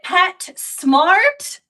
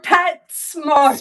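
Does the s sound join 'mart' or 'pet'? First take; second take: mart; pet. First: The s sound begins the second word, smart. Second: The s sound ends the first word, pets. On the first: Pets are smart. "are you saying that pets are smart" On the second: It is a store for pets. "or are you saying you're a mart for pets?"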